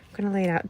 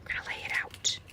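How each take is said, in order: First: Said in the usual way. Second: Breathy whispered echo of the line; soft whispered aside; whispered repeat. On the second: Shown as a demonstration. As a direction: whisper it back to yourself. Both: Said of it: "I'm a visual girl".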